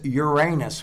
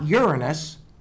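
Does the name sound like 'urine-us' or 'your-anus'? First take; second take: your-anus; urine-us. First: It sounds like 'your' followed by 'anus'. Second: It sounds like 'urine' followed by 'us'. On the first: This is how the town says it. The speaker calls it right. "because that's the way the town pronounces it" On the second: This is not how the town says it. The speaker calls it wrong. "it's not Uranus"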